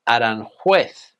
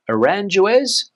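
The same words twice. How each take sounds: First: It is pronounced with Spanish sounds. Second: It is pronounced with English-style sounds. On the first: The speaker calls it right. "in Spanish, the pronunciation is" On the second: The speaker calls it wrong. "or something like that?"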